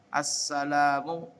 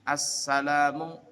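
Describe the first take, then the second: The two takes are said the same way.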